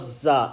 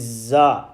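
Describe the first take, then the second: First: The letter sounds close to an s. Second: The letter has a clear buzzing z sound. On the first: The speaker calls it wrong. "It's not za" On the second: The speaker calls it right. "It's got the z sound in it"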